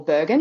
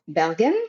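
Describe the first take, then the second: First: It is said with an Australian English pronunciation. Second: It is said with a Norwegian pronunciation.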